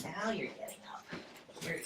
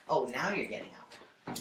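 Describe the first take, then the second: First: Pet talk. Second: Said in the usual way. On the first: Real, not acted. Teasing the dog in pet voice.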